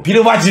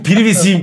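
First: "Privacy" said as Turkish spelling, pi-ri-va-ci; spelling pronunciation. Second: "Privacy" said English-style, pir-vi-si; mock-correct pronunciation. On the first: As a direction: sound out "Privacy" letter by letter as pi-ri-va-ci. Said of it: "Privacy diye yazılıyor". ("Privacy" yazıldığı gibi, pi-ri-va-ci) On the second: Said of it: "priv neymiş? Privacy miymiş?". ("Privacy" İngilizce okunuşuyla, pir-vi-si) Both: Shown as a demonstration.

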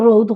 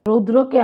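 First: রৌদ with the final r dropped; Sylheti pronunciation. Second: Said in the usual way. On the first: Shown as a demonstration. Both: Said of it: "আমরা রৌদ হই".

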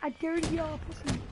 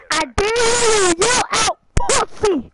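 First: Softer, half under the breath; quiet dare. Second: Slow, loud, drawn-out dare; louder repeat. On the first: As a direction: murmur the dare so only he hears. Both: Real, not acted. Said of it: "I said".

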